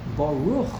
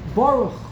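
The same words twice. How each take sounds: First: The stress is on the second syllable. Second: The stress is on the first syllable. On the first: The speaker calls it right. "it takes a lot of training to know it's Baruch" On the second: The speaker calls it wrong. "the emphasis is on the beginning of the word"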